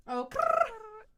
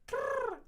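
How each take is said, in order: First: Oh then high loud rolled krrr; louder krrr. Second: High rolled krrr; repeated krrr call. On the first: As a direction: punch the krrr. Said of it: "repeating louder". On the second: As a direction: roll it sharply. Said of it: "repeating the sound". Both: Shown as a demonstration.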